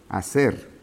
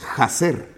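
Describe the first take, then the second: First: The h at the start is silent. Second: The h at the start is pronounced. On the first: The speaker calls it right. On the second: The speaker calls it wrong.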